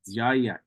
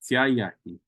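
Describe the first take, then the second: First: The word has a voiced 'dz' sound. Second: The word has a voiceless 'ts' sound.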